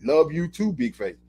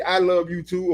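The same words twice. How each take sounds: First: Casual shorthand. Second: Said in the usual way. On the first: Shown as a demonstration. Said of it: "or I might say". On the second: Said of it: "I might say".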